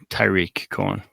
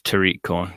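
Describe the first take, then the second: First: The first name is pronounced Tyreek. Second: The first name is pronounced Tariq. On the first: The speaker calls it wrong. "what did I say? Tyreek Cohen" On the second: The speaker calls it right. "it's Tariq Cohen"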